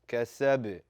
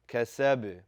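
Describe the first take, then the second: First: The final b ends with a slight vibrating bounce. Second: The final b ends with a slight vibrating bounce.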